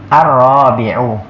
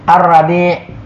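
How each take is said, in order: First: It is pronounced as the word meaning fourth. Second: It is pronounced as the word meaning spring. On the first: The word means the fourth one. The speaker calls it right. "kalau yang keempat Ar-Rabi'u" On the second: The word means a season, not fourth. The speaker calls it wrong. "maka ini maknanya sudah berubah, bukan yang keempat lagi"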